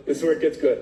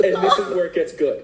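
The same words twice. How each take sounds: First: Said in the usual way. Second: Fast, laughing lead-in to the twist; laughing buildup. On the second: Real, not acted. Telling friend the good part, laughing and quick. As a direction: chuckle through it, rushing ahead.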